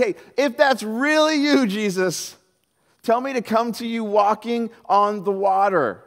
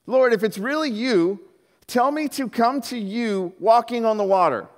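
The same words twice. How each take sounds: First: Slow, high, eager call to Jesus; high, stretched-out plea from the boat. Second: 1 called out. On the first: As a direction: Peter calling out across the water. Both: Acted. Peter calling out to Jesus.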